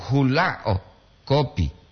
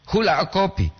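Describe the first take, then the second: First: "hula o" joined, a break, then "kopi"; pause after HULA O. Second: "Hula" set apart, then "o kopi" run together, high; pause before O KOPI. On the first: Teacher contrasting intonation for learners, "hula o" joined before "kopi". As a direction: hold "hula o" together, set "kopi" apart. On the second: Teacher contrasting intonation for learners, "Hula" apart from "o kopi". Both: Shown as a demonstration. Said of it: "Itu intonasi yang dibedakan di sini".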